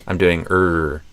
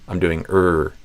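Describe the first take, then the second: The two takes are said the same way.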